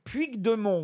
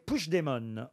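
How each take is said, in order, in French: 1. Le nom se lit avec les sons de l'orthographe française. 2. Le nom ne se lit pas avec les sons de l'orthographe française. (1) "Ça se lit Puigdemont" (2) "on doit prononcer Puigdemont, en fait"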